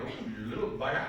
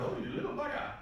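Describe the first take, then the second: First: Chuckling through Oh, you little bugger; amused father laughing at his defiant boy; fond laughing exclamation. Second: A high, airy whisper of Oh, you little bugger; father marvelling quietly at his defiant boy; breathy amused aside. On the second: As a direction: say it under your breath, half impressed. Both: Retold or imitated. Son stands up to him.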